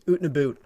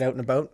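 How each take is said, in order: First: It is said in a mock Canadian accent. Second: It is said in a plain, standard accent.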